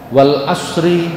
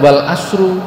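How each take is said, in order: First: The last word ends with an 'i' vowel. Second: The last word ends with a 'u' vowel. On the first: It is an oath: by the time. The speaker calls it right. "di akhirnya harus dengan kasroh" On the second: The 'and' starts a new sentence rather than swearing an oath. The speaker calls it wrong. "tidak boleh dengan domah"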